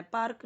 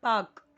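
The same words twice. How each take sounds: First: पार्क with the r sounded; पार्क pronounced Hindi-style with a spoken r; wrong pronunciation. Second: पार्क as "paak", no r; silent r. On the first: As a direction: say पार्क as "paark", r clearly heard. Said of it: "पार्क नहीं". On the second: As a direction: say पार्क loudly with a long aa and silent r. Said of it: "आर यहाँ पे silent है". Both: Shown as a demonstration.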